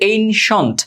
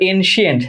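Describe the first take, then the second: First: The middle is said as a short 'shent'. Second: The middle is said as an extra 'shee-ent'. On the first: The speaker calls it right. "এটা হচ্ছে এনশন্ট" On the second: The speaker calls it wrong. "যেটা ভুল"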